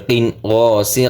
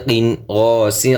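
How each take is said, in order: Both takes have the same delivery.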